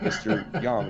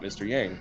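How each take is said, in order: First: The name is said the Chinese way. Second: The name is said the English way. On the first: The speaker calls it right. "it's also mister Yang" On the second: The speaker calls it wrong. "not mister Yang"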